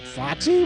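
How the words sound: The voice rises at the end.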